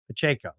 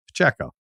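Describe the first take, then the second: First: The middle syllable has an 'ay' vowel. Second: The middle syllable has an 'eh' vowel. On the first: The speaker calls it wrong. "I think I say A, like A Y" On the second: The speaker calls it right. "Checo, like check, Checo"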